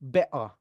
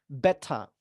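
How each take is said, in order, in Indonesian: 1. Bunyi t diganti hentian glotal. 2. Bunyi t tegas, dan tidak ada r di akhir. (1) "Mau lebih British lagi, diglotalkan aja" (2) "diletupkan dan R-nya dihilangkan ... itu kedengaran British"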